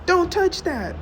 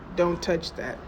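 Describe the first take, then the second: First: It is said in a loud, yelling voice. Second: It is said in a calm, normal voice. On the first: The speaker calls it right. "We would be yelling" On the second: The speaker calls it wrong. "But we wouldn't say"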